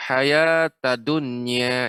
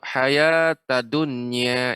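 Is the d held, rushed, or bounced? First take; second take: rushed; rushed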